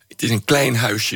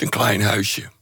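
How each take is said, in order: First: The vowel in klein sounds like standard ei. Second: The vowel in klein opens wide toward ai. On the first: The speaker calls it right. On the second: The speaker calls it wrong.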